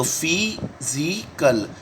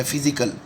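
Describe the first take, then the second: First: physical stretched out very slowly; very slow drawn-out word. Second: Said in the usual way. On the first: Shown as a demonstration. Teacher writing on the board, very slow physical. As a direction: linger on every sound of physical. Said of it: "teacher draws the word out". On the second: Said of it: "teacher says the word".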